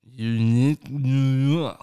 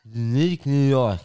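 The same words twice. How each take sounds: First: Tongue held while talking; tongue-tied twister, said slowly; holding tongue. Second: Slow, tongue-held lisp like Tyson; tongue-held twister, sounding like Tyson; holding tongue. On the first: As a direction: say it with your tongue held, slow and loud. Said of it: "Hold your tongue and do it". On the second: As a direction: force it out with your tongue held. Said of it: "You sound like Tyson". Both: Shown as a demonstration.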